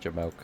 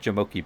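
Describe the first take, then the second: First: The word ends on a single 'mohk' syllable. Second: The word ends with an extra 'ee' syllable. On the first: The speaker calls it right. "A Jamoke? Jamoke" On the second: The speaker calls it wrong. "I think feel like I'm saying it wrong"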